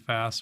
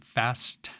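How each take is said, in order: First: The final T sound is left off. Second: The final T sound is clearly pronounced.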